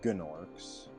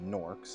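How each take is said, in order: First: The word starts with a hard G sound. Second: The word starts with a plain N sound. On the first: The speaker calls it right. "I call them Gnorks" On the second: The speaker calls it wrong. "I definitely don't call them Norks"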